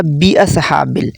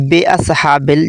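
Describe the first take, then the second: First: "बि अस्हाबिल" with a short i on bi; correct short bi. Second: "बे अस्हाबिल" with a long e sound on be; wrong be vowel. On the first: Teacher giving the corrected bi. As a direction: say "बि" short, clear i. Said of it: "दुरुस्त तलफ़ुज़ होगा बि अस्हाबिल". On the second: Teacher showing the wrong be reading. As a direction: say "बे" with e instead of i. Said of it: "कुछ लोग पढ़ते हैं बे अस्हाबिल". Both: Shown as a demonstration.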